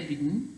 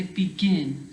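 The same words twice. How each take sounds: First: "begin" squashed to "BIG-n", stress at the front; wrongly unstressed ending. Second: "begin" as "be-GIN", weight on the end; stress on last syllable. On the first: Teacher showing pupils what not to say, "begin" with unstressed ending. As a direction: swallow the "gin" of "begin" into a weak "-n". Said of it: "You don't say begin". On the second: Teacher correcting for pupils, "begin" stressed on GIN. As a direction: land firmly on the "gin" of "begin". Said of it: "the stress is on the last part". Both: Shown as a demonstration.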